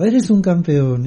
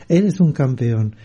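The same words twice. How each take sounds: First: Higher, drawn-out call, not a full yell; mild mock shout. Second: Slow echo in a more level pitch; returning echo. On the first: Father calls to the mountain, slow mock shout. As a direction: call it out slowly, voice raised in pitch. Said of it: "y el hombre gritó". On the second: Retold or imitated. Mountain answers the father, slow restrained echo. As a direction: repeat it slowly as an understated echo. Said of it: "y volvió el eco".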